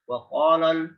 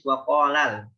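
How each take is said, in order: First: The l sound is said heavy. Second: The l sound is said light. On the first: The speaker calls it wrong. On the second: The speaker calls it right. "la-nya tipis"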